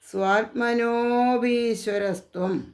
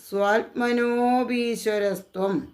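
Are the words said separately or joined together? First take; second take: joined; joined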